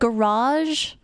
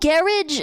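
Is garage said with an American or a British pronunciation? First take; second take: American; British. First: It is said with an American pronunciation. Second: It is said with a British pronunciation. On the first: This is how people elsewhere say it. "instead of garage" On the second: This is how people here say it. "garage instead of"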